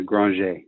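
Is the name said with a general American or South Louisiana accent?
South Louisiana. The name is said with a South Louisiana accent.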